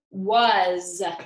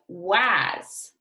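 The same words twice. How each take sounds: First: The word ends with a buzzing Z sound. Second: The word ends with a hissing S sound. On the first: The speaker calls it right. "It's pronounced was" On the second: The speaker calls it wrong. "But that's actually not how it's pronounced"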